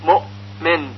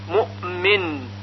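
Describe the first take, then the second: First: The hamza ends with a clean, firm stop. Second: The hamza ends with a slight bouncing echo. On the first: The speaker calls it wrong. "گفته نمیشه مؤمن، مؤمن مثل یأتی" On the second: The speaker calls it right. "بلکه صحیح هون این طور هست"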